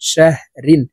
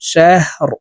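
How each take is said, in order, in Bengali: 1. শব্দটি -in ধ্বনি দিয়ে শেষ হয়। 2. শব্দটি খালি r ধ্বনি দিয়ে শেষ হয়। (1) "র দুই জের রিন শাহ রিন" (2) "র কে ওয়াকফের ক্ষেত্রে সাকিন করে ফেলবো"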